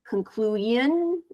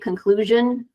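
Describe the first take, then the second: First: The final syllable is not said as shun. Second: The final syllable is said as shun. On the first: The speaker calls it wrong. "I heard conclusion a little bit" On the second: The speaker calls it right. "pronounce that S I O N as shun"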